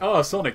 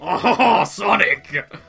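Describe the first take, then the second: First: It is said in a plain, normal voice. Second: It is said in a put-on French accent. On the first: "I'm not even trying an Eggman impression" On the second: "Give him a French accent"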